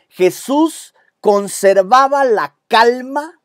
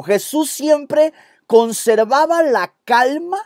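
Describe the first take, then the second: First: Slow, high dictation for notes. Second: Slow raised dictation with stress on siempre; slow dictation, higher. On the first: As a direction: spell it out slowly for the notes. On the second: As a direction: dictate it slowly, leaning on "siempre". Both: Shown as a demonstration. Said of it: "Anote eso en tu bosquejo".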